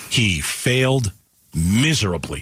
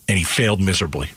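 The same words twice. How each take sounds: First: "failed" and "miserably" spaced out slowly with a pause between; slow emphatic repeat. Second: Said in the usual way. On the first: Shown as a demonstration. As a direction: drag out "He failed" then drop into "miserably".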